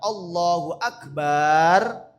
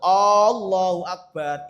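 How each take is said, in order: First: The vowel in Akbar is held long. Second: The first vowel at the start is held long. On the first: The word comes to mean drums. "Kalau baknya itu panjang" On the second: It turns into a question about whether God is great. "Kalau A-nya panjang yang yang depan"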